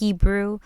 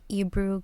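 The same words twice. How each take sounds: First: The word starts with an H sound. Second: The word starts without an H sound. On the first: The speaker calls it right. "but I think it's Hebrew" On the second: The speaker calls it wrong. "in Spanish we don't pronounce the H"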